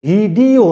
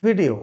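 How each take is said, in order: First: ভিডিও slowly stretched, long middle syllable; wrong pronunciation. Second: ভিডিও short and quick, falling; correct pronunciation. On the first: Teacher rejecting a common mistake, wrong pronunciation. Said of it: "ভিডিও নয়". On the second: Teacher giving students the answer, correct pronunciation. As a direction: compact model of ভিডিও, no drawn syllable. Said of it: "কি হবে?". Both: Shown as a demonstration.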